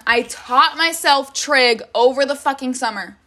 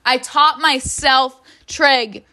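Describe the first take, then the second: First: Said in the usual way. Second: "taught" stressed, slow and louder; slow emphatic repeat. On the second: Shown as a demonstration. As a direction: lean on "taught" in disbelief.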